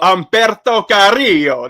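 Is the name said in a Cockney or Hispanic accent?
Hispanic. The name is said in a Hispanic accent.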